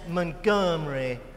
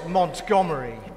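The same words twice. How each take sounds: First: The name is said the local American way. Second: The name is said the British way. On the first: It refers to the local city or its namesakes. "If I'd meant any of them, I'd have said Montgomery" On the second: It refers to the man from South London. "not Montgomery. This Montgomery was from South London"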